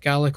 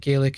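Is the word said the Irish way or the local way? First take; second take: local; Irish. First: The word is said with the local pronunciation. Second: The word is said with the Irish pronunciation. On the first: "We tend to pronounce it Gaelic over here" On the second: "or it might be Gaelic in Ireland"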